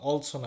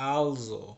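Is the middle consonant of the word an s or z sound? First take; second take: s; z. First: The middle consonant is an s sound. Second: The middle consonant is a z sound. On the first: The speaker calls it wrong. "এটার উচ্চারণ কিন্তু অলসো না" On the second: The speaker calls it right. "কিন্তু এটার উচ্চারণ হচ্ছে আলজো"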